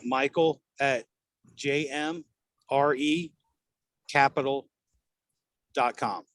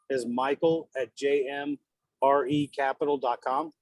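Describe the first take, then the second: First: The address is said slowly and carefully. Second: The address is said at normal, quick speed.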